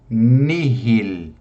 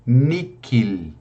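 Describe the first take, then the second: First: The middle consonant is a breathy h sound. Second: The middle consonant is a hard k sound. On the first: "eu posso pronunciar com H aspirado" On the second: "eu posso pronunciar com o som do K"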